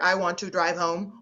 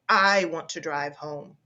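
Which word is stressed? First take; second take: none; I. First: Every word is said on one flat pitch. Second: The word I is stressed. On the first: "saying that like a computer, ... all in the same pitch" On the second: "the words to be emphasized ... the sense is, I'm the driver"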